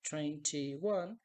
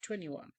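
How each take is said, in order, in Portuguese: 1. O t depois do n é claramente pronunciado. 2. O t depois do n é omitido. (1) "ao invés de falar" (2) "você pode apenas falar ... você pode cortar esse T"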